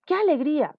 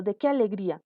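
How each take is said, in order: First: High, loud demonstration of joy; exclaiming. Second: Said in the usual way. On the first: Shown as a demonstration. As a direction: exclaim "Qué alegría" with a falling tune. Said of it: "Queremos exclamar". (exclamación de alegría, fuerte y aguda)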